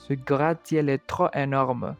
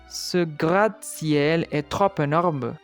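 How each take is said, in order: First: The words are said without an added linking consonant. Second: A linking consonant joins trop to énorme. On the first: The speaker calls it right. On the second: The speaker calls it wrong.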